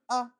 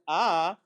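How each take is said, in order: First: The vowel is said short and quick. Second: The vowel is said at normal length. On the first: It is a hurried vowel marked by two dots. "you should read it twice as fast" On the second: It is a full kamatz vowel. "Instead of reading the kamatz on speed one"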